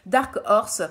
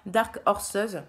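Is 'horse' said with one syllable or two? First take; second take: one; two. First: Horse is said as a single syllable. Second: Horse is said with an extra second syllable. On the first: The speaker calls it right. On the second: The speaker calls it wrong.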